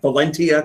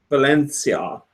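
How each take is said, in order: First: The middle consonant is a hard T sound. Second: The middle consonant is a soft sh-like sound. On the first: The speaker calls it wrong. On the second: The speaker calls it right.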